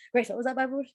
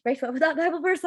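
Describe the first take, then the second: First: Said in the usual way. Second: Higher, more urgent repeat of the question. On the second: Retold or imitated. Retold note-taker pressing friend Grace again, higher and urgent. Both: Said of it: "she talked way too fast for me".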